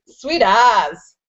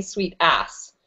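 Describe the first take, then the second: First: "sweet ass" ending in a buzzed Z, as in "as"; New Zealand slang. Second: "sweet ass" with a hissed double S; "sweet ass" as in backside, ending in S; misheard version. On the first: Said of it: "one of my favorites". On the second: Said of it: "people think I'm saying sweet ass". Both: Shown as a demonstration.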